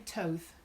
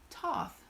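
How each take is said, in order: First: The vowel sounds like the one in oath. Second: The vowel sounds like the one in moth. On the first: "like it rhymes with with oath" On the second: "like moth"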